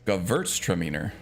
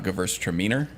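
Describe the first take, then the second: First: The stress is on the würz syllable. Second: The stress is on a different syllable. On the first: The speaker calls it right. "I say it with an accent on the verts" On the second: The speaker calls it wrong.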